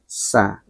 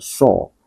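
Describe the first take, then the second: First: The s is thin, with spread, smiling lips. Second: The s is thick, with a darker vowel. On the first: The speaker calls it right. "Huruf sin ini harus dikembalikan ke makhrajnya. Dia agak tersenyum" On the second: The speaker calls it wrong. "Bukan so"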